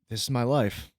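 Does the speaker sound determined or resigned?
resigned. It is said with a weary, resigned tone. The speaker feels stuck with their life.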